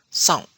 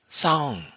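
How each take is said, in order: First: The syllable has a short, clipped tone. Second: The syllable has a long, high tone. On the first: It means to wait. "short tone, meaning to wait" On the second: It means the Burmese harp. "high tone, meaning the Burmese harp"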